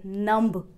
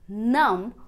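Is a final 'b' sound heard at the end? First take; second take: yes; no. First: A 'b' sound is heard at the end. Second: No 'b' sound is heard at the end. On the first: The speaker calls it wrong. "नंब या क्लाइंब नहीं" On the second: The speaker calls it right. "बी silent mode पर चला जाएगा"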